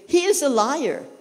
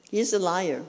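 First: "he is a liar" raised higher with a hard punch on "is"; emphatic quote. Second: Said in the usual way. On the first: Shown as a demonstration. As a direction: drive home "is" in "he is a liar", higher and firm. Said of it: "it says here".

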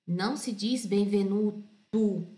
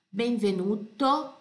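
First: "benvenuto" ending with a U sound, like Portuguese "benvenutu"; wrong U ending. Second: "benvenuto" with a clean closed O at the end, not U; clear O ending. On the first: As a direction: show the wrong Brazilian ending. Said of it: "Porque não é U, é O". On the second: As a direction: model the Italian O ending. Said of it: "Repete comigo". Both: Shown as a demonstration.

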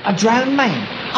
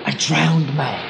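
First: DROWNED pitched up and drawn out; emphatic repeat. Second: Low, slow, drawn-out reveal; slow and low, for suspense; dramatic reveal. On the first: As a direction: repeat it slowly, stretching "drowned" with a falling end. Repeats it after "I beg your pardon. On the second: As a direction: stretch it out like a sinister showman. Showman reveals his attraction after pause. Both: Acted.

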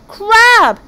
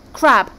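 First: High, very loud, drawn-out retort; arguing shout. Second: Firm, louder contradiction; first round of a squabble, insistent but not yet shouting; arguing. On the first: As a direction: win the squabble by sheer volume. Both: Acted. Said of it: "They were so busy arguing".

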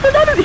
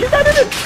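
First: High yell, stress on not; high shout. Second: High yell, stress on in; high shout. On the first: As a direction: shout it in panic. Shouting in game panic. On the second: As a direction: yell it again urgently. Repeated shout. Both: Real, not acted.

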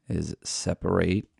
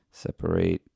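First: Said in the usual way. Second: Whispered separate. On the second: Shown as a demonstration. Repeats word while working.

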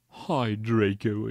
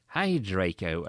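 First: Slow, gloomy drawn-out greeting; hammed-up dejected drawl; depressed voice. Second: Said in the usual way. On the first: A narrator's reading. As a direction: say hello as if deeply depressed. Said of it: "said in a depressed voice".

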